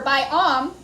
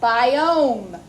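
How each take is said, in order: First: The second syllable has a short ah vowel. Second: The second syllable has a long oh vowel. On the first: The speaker calls it wrong. "we don't say bi-om. It's not a short O" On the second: The speaker calls it right. "we're saying the long O"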